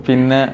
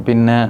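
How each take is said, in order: The two takes are said the same way.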